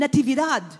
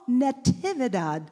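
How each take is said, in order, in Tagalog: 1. Binibigkas nang biglaan ang pangalan, may matigas at pababang tunog. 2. Binibigkas nang marahan ang pangalan, may tunog na parang musika. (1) "Parang pabagsak ba? Parang there's no sweetness" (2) "it's music to my ears"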